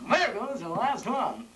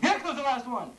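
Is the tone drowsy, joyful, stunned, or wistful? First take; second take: wistful; joyful. First: It is said in a wistful, longing way. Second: It is said in a happy, joyful way.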